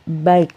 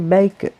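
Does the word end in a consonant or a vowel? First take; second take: consonant; vowel. First: The word ends in a bare consonant. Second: The word ends with an added vowel. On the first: The speaker calls it wrong. "tidak baik" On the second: The speaker calls it right. "tapi baiku"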